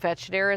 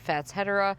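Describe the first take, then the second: First: The word is said in a playful alternative pronunciation. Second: The word is said in its standard pronunciation. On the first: "I think Fatschedera is more fun to say" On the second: "probably the correct pronunciation of Fatschedera"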